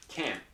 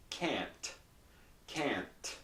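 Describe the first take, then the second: First: "can't" cut off, T unreleased; stops right there. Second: "can't" ending in a crisp T puff; released T. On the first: Teacher contrasting two endings, "can't" without T release. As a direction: stop "can't" dead, no puff. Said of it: "Just stops right there". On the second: Teacher contrasting two endings, "can't" with released T. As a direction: let the T of "can't" go audibly. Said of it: "but does not release. Here, it really". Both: Shown as a demonstration.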